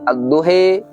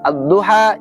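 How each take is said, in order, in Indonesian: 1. Vokal akhir condong ke e. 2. Vokal akhir adalah a terbuka biasa.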